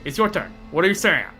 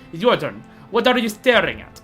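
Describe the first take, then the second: First: It is said in the speaker's own accent. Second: It is yelled in a Russian accent.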